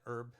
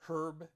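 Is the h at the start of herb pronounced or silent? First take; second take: silent; pronounced. First: The word begins with a silent h. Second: The word begins with a sounded h. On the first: "we have the silent H here" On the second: "do you mean herb?"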